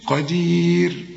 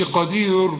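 First: "قدير" drawn out slowly on a long ee, thin final r; light final r. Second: "قدير" wrongly ending in a dark, rounded r; heavy final r. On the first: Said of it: "رقق". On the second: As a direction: darken the end of "قدير" as a mistake. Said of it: "ما تقولش قدير". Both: Shown as a demonstration.

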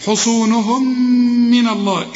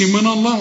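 First: حصونهم من with one long hummed "mm" joining them; merged meem. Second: من الله with a dark, thick "naw"; wrong heavy noon. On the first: Teacher demonstrating merged meems, حصونهم من hummed together. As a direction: hold the nasal meem between حصونهم and من. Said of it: "والكلمة التي تليها بتبدأ بميم". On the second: Teacher showing what not to say, heavy noon in من الله. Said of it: "ما تقولش". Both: Shown as a demonstration.

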